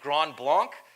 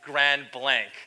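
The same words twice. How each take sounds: First: It is pronounced the French way. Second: It is pronounced the English way. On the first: The speaker calls it wrong. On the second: The speaker calls it right.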